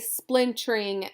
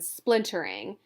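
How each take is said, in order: First: The word is squeezed into two syllables. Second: The word is said with all three syllables. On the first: "as two syllables" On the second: "rather than splintering"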